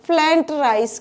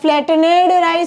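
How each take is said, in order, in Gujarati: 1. આ શબ્દ બે ટૂંકા અક્ષરમાં દબાવીને બોલાય છે. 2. આ શબ્દના અંતે 'ned' નો અલગ અક્ષર આવે છે. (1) "કહેવાય છે" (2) "એવું નથી કહેવાતું"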